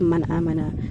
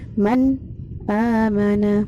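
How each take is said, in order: First: The words run on with no break before amana. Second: There is a brief stop after man before amana. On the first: "Tahqiq kita tadi ya, tetap bacaannya" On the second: "Sakat itu berhenti sejenak, berhenti pada huruf sahih mati"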